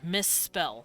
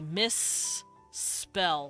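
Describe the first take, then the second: First: The two s sounds blend into one long s. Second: The two s sounds are said separately. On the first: "you just blend it all together" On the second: "you also pronounce the S in spell, so you say misspell"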